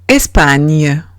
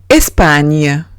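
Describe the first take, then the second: The two takes are said the same way.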